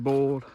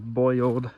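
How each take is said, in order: First: It is said with a rural country pronunciation. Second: It is said with a standard city pronunciation.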